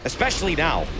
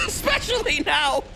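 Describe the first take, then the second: First: Said in the usual way. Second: Mock shout. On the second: Shown as a demonstration. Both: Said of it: "repeated louder".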